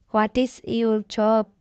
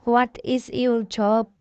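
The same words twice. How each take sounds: The two takes are said the same way.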